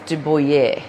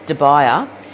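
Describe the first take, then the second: First: The name is said with a French accent. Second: The name is said with an Australian accent. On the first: "if I'm going to bring my French out" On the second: "In Aussie language"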